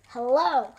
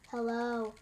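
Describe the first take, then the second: First: The voice sounds angry and harsh. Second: The voice is flat and monotone. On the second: "very monotone"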